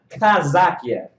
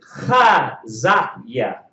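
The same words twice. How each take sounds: First: It starts with a hard K sound. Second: It starts with a throaty, spitting H sound. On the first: The speaker calls it wrong. "My name is not" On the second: The speaker calls it right. "It's not ka"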